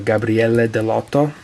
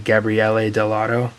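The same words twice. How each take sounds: First: The name is said with an Italian accent. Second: The name is said with an American accent.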